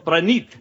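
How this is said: The name is said in an Indian accent. The speaker calls it right. "you got to go Pranit Mungali"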